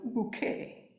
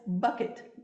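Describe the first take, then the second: First: The name sounds like the word bouquet. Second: The name sounds like the word bucket. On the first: It is meant to sound more refined. "ella insiste en pronunciarlo bouquet, porque suena más fino" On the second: It is the ordinary family name. "es Bucket, que en inglés es balde"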